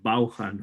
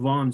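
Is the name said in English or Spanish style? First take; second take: Spanish; English. First: The name is said in another Spanish-style way. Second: The name is said in its English way. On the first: The speaker calls it wrong. "Spaniards would pronounce that last name in a different way" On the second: The speaker calls it right. "it's called Vaughan Systems"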